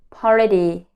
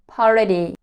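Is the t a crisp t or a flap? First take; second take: flap; flap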